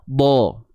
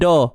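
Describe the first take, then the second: First: The d sound is heavy and thick. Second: The d sound is light and thin. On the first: The speaker calls it right. "huruf dha tebal selamanya" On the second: The speaker calls it wrong. "Jangan da"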